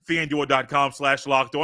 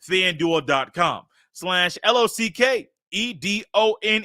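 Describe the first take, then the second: First: It is said at normal, faster speed. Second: It is said slowly, spelling letters out.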